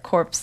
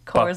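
First: The word ends with audible p and s sounds. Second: The word ends without the p and s sounds. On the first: It means a dead body. "or is that corpse like a dead body?" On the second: It means a military unit. "Is that like cores, like the Marine Corps"

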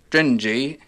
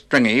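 First: The g is soft, as in stringent. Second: The g is hard, as in string. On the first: The speaker calls it right. "as in stringent" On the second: The speaker calls it wrong. "you'd think of it as stringy"

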